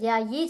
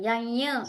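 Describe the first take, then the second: First: The word ends with a short 'yi' sound. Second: The word ends with a doubled 'yya' sound. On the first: The speaker calls it right. "ఇక్కడ యయి చెప్పాలి" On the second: The speaker calls it wrong. "యయ్య అని చెప్పొద్దు"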